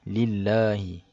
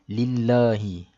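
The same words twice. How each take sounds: No difference in how they are said.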